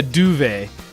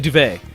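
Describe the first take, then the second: First: It is said with a British pronunciation. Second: It is said with an American pronunciation. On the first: This is how people in the UK say it. The speaker calls it wrong. "we don't say a duvet" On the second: This is how people in the US say it. The speaker calls it right. "We say a duvet"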